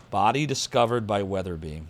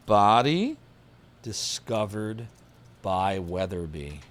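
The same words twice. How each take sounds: First: Said in the usual way. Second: "Body ... discovered ... by Weatherby" said slowly, with a long pause after each part; slow dramatic pauses. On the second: Shown as a demonstration. Repeats clue dramatically.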